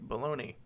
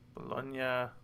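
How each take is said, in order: First: The name is said with an American pronunciation. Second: The name is said without an American pronunciation.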